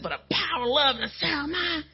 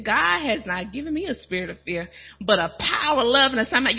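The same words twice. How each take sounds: First: Sassy, defiant declaration; with attitude. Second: Said in the usual way. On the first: Shown as a demonstration. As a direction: say it like you mean it against the enemy. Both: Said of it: "You gotta say it with attitude".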